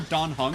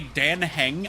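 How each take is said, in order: First: The name is said the Chinese way. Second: The name is read as its English spelling suggests. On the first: This is how the game says the name. The speaker calls it right. "immediately hear Dan Hung" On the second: The name was guessed from the subtitles. The speaker calls it wrong. "say Dan Heng"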